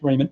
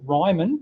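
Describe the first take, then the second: First: The first syllable sounds like 'ree'. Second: The first syllable sounds like 'rye'. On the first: The speaker calls it right. "It is apparently pronounced Riemann" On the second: The speaker calls it wrong. "please resist the urge to pronounce it Ryman, even though that's the way it looks"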